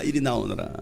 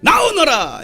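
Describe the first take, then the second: First: Low, soft summons; quiet command. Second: Loud, high summons; commanding call. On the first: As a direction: beckon softly in a lowered voice. Low repeat after loud summons. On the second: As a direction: call the dead man out forcefully. Jesus summons dead Lazarus. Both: Acted.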